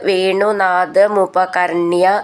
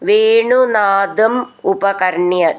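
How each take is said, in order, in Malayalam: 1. രണ്ട് വാക്കും ചേർന്ന് ഒറ്റയായിട്ടാണ് പറയുന്നത്. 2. രണ്ട് വാക്കും വേറെ വേറെയായിട്ടാണ് പറയുന്നത്.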